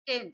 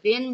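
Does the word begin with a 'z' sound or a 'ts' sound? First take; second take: ts; z. First: The word begins with a 'ts' sound. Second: The word begins with a buzzing 'z' sound. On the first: The speaker calls it right. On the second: The speaker calls it wrong.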